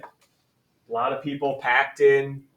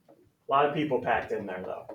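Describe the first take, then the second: First: Slowly stressed, leaning on packed in; slow emphasis. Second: Said in the usual way. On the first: Shown as a demonstration. Teacher reminds the class what density means, slow and stressed. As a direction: spell the idea out word by word for the class. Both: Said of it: "And remember what population density is".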